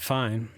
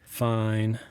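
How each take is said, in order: First: It sounds neutral, like doing okay. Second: It sounds unhappy but open to talking.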